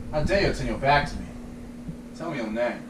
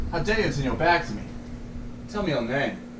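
First: Quiet, steady mock emperor, no laughter; straight-faced quote. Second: Movie line cracking into laughter, quiet; can't hold the straight face, laugh through it; breaking up laughing. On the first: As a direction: hold it together, low and hushed. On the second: Pretend. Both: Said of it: "My name is Maximus Decimus".

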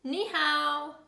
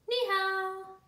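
First: Higher, louder hello; called greeting. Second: High, held, drawn-out hello; echoed greeting. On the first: A neighbour greets the passers-by, lifted and louder. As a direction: call the hello out brightly. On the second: Greeting returned after the dog barks, high and held. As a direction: keep it high to the end. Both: Acted.

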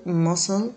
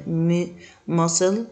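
First: Said in the usual way. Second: ماسل drawn out slowly, syllable by syllable; slow model pronunciation. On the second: Shown as a demonstration. Teacher modelling ماسل for learners, slow and drawn out. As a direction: stretch ماسل slowly so learners can copy it. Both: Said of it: "vocabulary drill, repeats each word".

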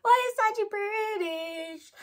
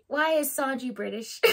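First: High, slow whining lament; hammed-up tearful whine, drawn out; mock wail. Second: Said in the usual way. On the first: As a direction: wail it out, stretching BRITISH. Wailing her gripe after laughing.

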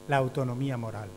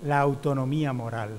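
First: Said in the usual way. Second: "la autonomía moral" with a long drawn "la"; stressed key term. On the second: Shown as a demonstration. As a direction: lean on "la autonomía moral" to mark the key idea.

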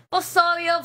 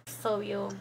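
First: Higher, louder "Pues obvio"; loud, cocky "obvio" with a laugh; emphatic. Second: Said in the usual way. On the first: Real, not acted. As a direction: punch it back louder and higher. Repeats answer, second louder.

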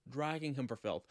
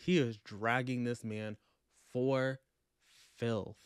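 First: Said in the usual way. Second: "for" and "filth" each set apart by a pause; emphatic pauses. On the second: Real, not acted. Book vlogger savouring Robin's takedown, dramatic pauses before "filth". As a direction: break it up: dragging this man... FOR... FILTH.

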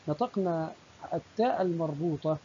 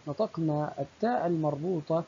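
Both takes have the same delivery.

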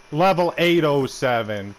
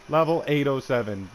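First: Slow, louder jeering read of the level; loud mocking taunt. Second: Said in the usual way. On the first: Real, not acted. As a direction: drag it out loud to mock him.

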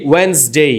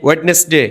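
First: ওয়েডনেসডে in two syllables, "WENZ-dey". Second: ওয়েডনেসডে with the d sounded, "WED-nes-day"; ওয়েডনেসডে in three syllables, d before n; spelling pronunciation. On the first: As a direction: silent d in ওয়েডনেসডে, s like z. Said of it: "এই এস জর মতো উচ্চারণ হবে". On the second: Usual way, corrected later. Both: Shown as a demonstration.

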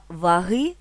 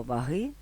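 First: «ваги» said va-HY, louder, stress on the last syllable; наголос на другому складі: ваги́; stress on second syllable. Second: «ваги» said va-HY, stress on the second syllable; наголос на другому складі: ваги́. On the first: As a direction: lean on the end of «ваги», va-HY. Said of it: "наголос на другому складі". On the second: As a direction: put the stress on the end of «ваги», va-HY. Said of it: "з наголосом на другому складі". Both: Shown as a demonstration.

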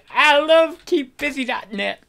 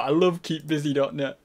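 First: High, loud burst of enthusiasm; hammed-up high-pitched delight; mock gushing. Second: Said in the usual way. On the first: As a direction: gush over it like a huge fan. Gushing about a website.

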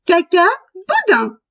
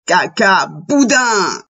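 First: High little rabbit voice; cheeky little rabbit. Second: Slow, drawn-out wolf voice; wolf's voice. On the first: Little rabbit answering the wolf, high cheeky voice. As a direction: pipe it up high, then drop at the end. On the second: Wolf answering his wife, slow drawn-out voice. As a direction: stretch it out slowly, falling at the end. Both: A narrator's reading.

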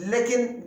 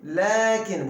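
First: Lekin with a flat short e; the mistaken vowel; wrong short e. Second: Lakin with a long open a after the l; the correct long vowel; long a after lam. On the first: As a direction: say Lekin with an e, not an a. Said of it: "Lekin değil". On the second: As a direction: draw out the a in Lakin. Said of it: "Burada uzatma var lamdan sonra". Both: Shown as a demonstration.

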